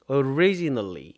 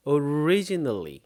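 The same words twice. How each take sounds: The two takes are said the same way.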